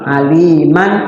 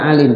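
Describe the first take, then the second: First: The word ends with an n sound. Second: The word ends cut short on m. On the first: "aliman jadi alima" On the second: "Alim dibaca alim padahal di situ fathatain"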